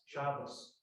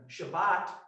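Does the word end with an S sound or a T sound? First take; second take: S; T. First: The word ends with an s sound. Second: The word ends with a t sound. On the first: "That's O S, Shabbos"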